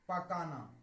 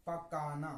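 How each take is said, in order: Both takes have the same delivery.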